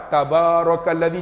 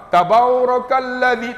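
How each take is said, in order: First: Said in the usual way. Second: "Tabarakalladzi" disebut lambat, "tabau" di depan; sebutan salah. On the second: Shown as a demonstration. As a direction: panjangkan "Tabarakalladzi" jadi "tabau". (sebutan "Tabarakalladzi" yang diseleweng) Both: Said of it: "tabau, tak ada".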